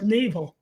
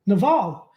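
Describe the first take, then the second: First: "navel" said NAY-vul; spelling pronunciation. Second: "Naval" as nuh-VAHL, questioning; questioned pronunciation. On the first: Shown as a demonstration. Co-host defends reading it as spelled, "navel" as NAY-vul. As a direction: stress the first syllable of "navel", with a long ay. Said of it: "it's spelled navel". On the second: Real, not acted. Co-host queries the correction, "Naval" as questioning nuh-VAHL. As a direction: echo "Naval" with stress on a long ah. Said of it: "Well, it's spelled navel".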